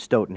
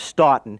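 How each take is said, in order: First: The name is said in the Wisconsin way. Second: The name is said in the old-world way. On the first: "in Wisconsin, it's always been Stoughton" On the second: "the old world pronunciation is Stoughton"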